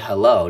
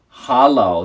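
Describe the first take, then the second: First: The first vowel sounds like 'eh'. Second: The first vowel sounds like 'ah'. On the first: The speaker calls it wrong. "don't say hello" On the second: The speaker calls it right. "The E becomes an A"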